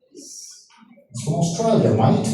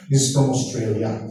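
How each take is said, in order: First: Put-on drawn-out joking Australian accent; playful, stretched Australian vowels; mock Australian accent. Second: Said in the usual way. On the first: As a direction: say it slowly like a jokey Aussie. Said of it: "naiintindihan yung accent ng mga Australiano".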